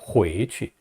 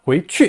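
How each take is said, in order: First: The second syllable is said weakly. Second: The second syllable is said strongly. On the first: The speaker calls it right. "약하게 발음합니다" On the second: The speaker calls it wrong. "취를 강하게 내지 말고요"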